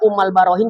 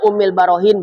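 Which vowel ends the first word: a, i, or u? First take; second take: a; i. First: The first word ends with an a vowel. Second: The first word ends with an i vowel. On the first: "Dibaca Ummal Barohin juga boleh" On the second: "Dibaca Ummil Barohin boleh"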